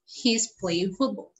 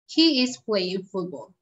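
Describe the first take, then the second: First: He is is contracted into one syllable. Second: He is is said as two full words.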